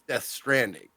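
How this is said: The stress falls on the second word. "with the accent on the Stranding"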